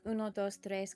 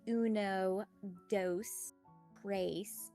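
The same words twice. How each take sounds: First: It is counted with a native Spanish accent. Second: It is counted with an American Valley Girl accent. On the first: The speaker calls it right. "instead of" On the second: The speaker calls it wrong. "They pronounce it with English Valley Girl"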